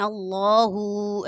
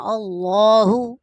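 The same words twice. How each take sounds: First: अल्लाहु with the final हु stretched long; wrong drawn-out. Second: अल्लाहु louder with a short, unstretched हु; correct short. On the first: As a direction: show the common mistake of dragging हु. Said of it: "ऐसे करके पढ़ जाते हैं, खींच कर नहीं पढ़ना". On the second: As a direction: say अल्लाहु cleanly, no drag on हु. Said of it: "इस तरह से पढ़ना है". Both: Shown as a demonstration.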